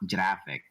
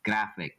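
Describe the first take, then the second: First: The word starts with a soft G sound. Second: The word starts with a hard G sound. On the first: The speaker calls it wrong. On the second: The speaker calls it right. "it's a hard G"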